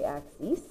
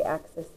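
First: "axes" ending in a long "-eez", AK-seez; plural "ak-seez" pronunciation. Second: "axes" said like the singular axis, with short "-sis" ending; wrong plural pronunciation. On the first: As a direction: say "axes" with a long ee in the last syllable. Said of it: "we say axes". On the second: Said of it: "We don't say axes". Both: Shown as a demonstration.

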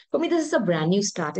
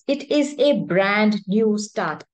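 First: Said in the usual way. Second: "It is a brand new start" said slowly and louder, each word weighted; slow emphatic repeat. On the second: Shown as a demonstration. Tarot reader stressing the new start to viewers, slow and emphatic. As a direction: lean into "brand new start", unhurried and firm.

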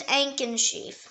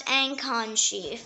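First: Ankhensheep with a reduced middle vowel, ANK-un; first pronunciation. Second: Ancon sheep with a full vowel in the second syllable; alternative pronunciation. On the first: Word lesson giving the main form, reduced-vowel pronunciation. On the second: Word lesson giving the other form, full-vowel pronunciation. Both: Shown as a demonstration. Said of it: "It can also pronounce".

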